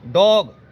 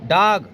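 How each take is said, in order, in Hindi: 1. स्वर 'aa' और 'o' के बीच में बोला जाता है। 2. स्वर सादे 'aa' जैसा बोला जाता है। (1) "बड़े आ से छोटे ओ के बीच में बोल सकते हैं" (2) "दूसरे रूप से बोला जा सकता है"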